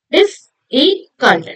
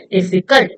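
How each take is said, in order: First: Slow 'difficult' as dif, fi, cult; syllable by syllable. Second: Said in the usual way. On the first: Shown as a demonstration. Teacher recapping three syllables for students, syllable by syllable. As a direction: break 'difficult' into three spaced beats. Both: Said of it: "Three syllables".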